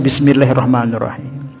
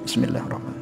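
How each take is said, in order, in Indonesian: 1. Dibaca keras dengan suara penuh. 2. Dibaca pelan, hampir tidak terdengar. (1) "dijahar, jaharkan, dikeraskan" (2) "Bersuara tapi sedikit kedengaran suaranya"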